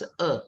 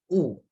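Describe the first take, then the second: First: The word is said with the vowel sound "e". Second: The word is said with the sound "wu". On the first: It means wicked or evil things. "can be pronounced as "e"" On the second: It means to hate or loathe. "or pronounced as "wu.""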